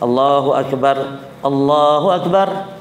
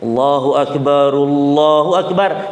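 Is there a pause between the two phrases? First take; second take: yes; no. First: There is a pause between the two phrases. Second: Both phrases run together in one breath. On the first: The speaker calls it wrong. "salah kalau adzan Allahu akbar, Allahu akbar, salah ini" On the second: The speaker calls it right. "sekali nafas"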